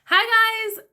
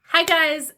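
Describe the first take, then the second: First: It is said in a perky, energetic way. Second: It is said in a calmer, toned-down way.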